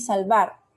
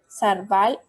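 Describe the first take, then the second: First: The l comes first, the r last. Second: The r comes first, the l last. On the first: The speaker calls it right. "del lado derecho tenemos la palabra correcta" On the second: The speaker calls it wrong. "Del lado izquierdo tenemos la metátesis"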